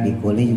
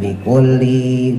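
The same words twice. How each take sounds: First: The word is said short and plain. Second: The word is drawn out with a melody. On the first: The speaker calls it right. "bikulli juga pendek ya" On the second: The speaker calls it wrong.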